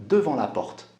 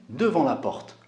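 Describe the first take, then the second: Both takes have the same delivery.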